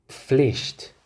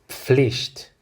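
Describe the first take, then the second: Both takes have the same delivery.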